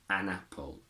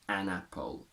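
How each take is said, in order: The two takes are said the same way.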